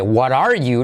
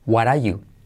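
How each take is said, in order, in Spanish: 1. El sonido de la r en 'are' se pronuncia claramente. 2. El sonido de la r en 'are' se omite. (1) "La primera, pronunciando todo" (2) "la R de what are, decae"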